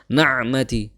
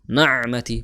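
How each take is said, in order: No difference in how they are said.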